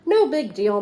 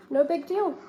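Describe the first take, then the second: First: Said in the usual way. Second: Higher, lightly voiced relaxed grape; teacher repeats the grape to the class, easygoing; grape's easygoing voice. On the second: Shown as a demonstration. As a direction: echo the grape's easy forgiveness. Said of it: "the grape just says it's okay".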